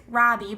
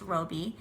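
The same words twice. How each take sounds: First: Robbie with a short "ah", as in "rob"; mistaken pronunciation. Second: Roby with a long "oh", as in "robe"; correct pronunciation. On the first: Reviewer voicing how many people misread the author's name, Robbie with short "ah". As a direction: say Robbie to rhyme with "hobby". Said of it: "A lot of people think it's Robbie". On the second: Reviewer correcting the author's name for viewers, Roby with long "oh". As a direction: say Roby as "ROH-bee". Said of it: "it's pronounced Roby". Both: Shown as a demonstration.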